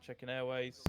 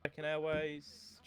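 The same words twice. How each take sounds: First: Said in the usual way. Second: Drawn out. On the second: Shown as a demonstration. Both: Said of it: "repeated line read twice".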